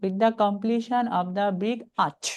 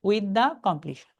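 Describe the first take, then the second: First: Very slow but joined right through to arch; slow, connected teaching read; read as one phrase. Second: Very slow, halting after completion; slow chunk with a stop at the end; beginner's chunk, stopping. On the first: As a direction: keep the whole phrase together. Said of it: "মনে করতে হবে একসাথে". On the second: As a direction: read it the way a beginner pauses. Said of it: "আপনি যদি beginner হন". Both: Shown as a demonstration.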